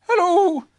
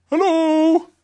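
First: High, louder bear greeting; short greeting in a high-pitched voice; Pooh. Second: Loud, high whooped greeting; drawn-out creature call; Tigger. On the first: Pooh greets Tigger in the morning, high voice. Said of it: "said Pooh". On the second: Tigger greets Pooh back, loud high whoop. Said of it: "said Tigger". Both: A narrator's reading.

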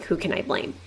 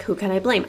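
First: Unvoiced whisper under the breath; whispered thought. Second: Said in the usual way. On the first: Shown as a demonstration. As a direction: whisper it like a thought kept to yourself. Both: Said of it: "I wasn't thinking out loud".

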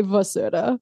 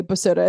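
First: "vasura" begun with a V; V pronunciation. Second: "basura" begun with a B; B pronunciation. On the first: Podcaster contrasting how people say it, V pronunciation. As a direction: say "vasura" with a V, not a B. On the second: Podcaster contrasting how people say it, B pronunciation. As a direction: say "basura" with a B, not a V. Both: Shown as a demonstration. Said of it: "whether they say Vasura or Basura".

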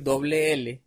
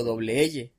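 First: Said in the usual way. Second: "L" said "eye", with a Y sound; slow imitation of the slip on "L"; mispronounced L. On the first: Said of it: "Como no pude decir". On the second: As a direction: say "L" as "elle", not "ele".

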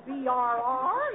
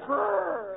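First: "B R R" said as three separate letters; letters spelled out. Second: "brr" as a single shiver noise; one shivering sound. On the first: Wife mimicking Paul's misread line, "B R R" spelled out. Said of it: "You don't say B R R". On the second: Wife correcting Paul's line, "brr" as one shiver sound. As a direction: run "brr" together as one drawn-out shiver. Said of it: "you say brr". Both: Shown as a demonstration.

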